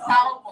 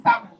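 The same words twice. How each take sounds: First: "salmon" with the L sounded; wrong pronunciation. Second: "salmon" with a silent L; correct pronunciation. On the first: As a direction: show "salmon" as SAL-mon, loudly. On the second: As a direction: say "salmon" loudly as SAM-on. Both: Shown as a demonstration. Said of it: "the L is silent".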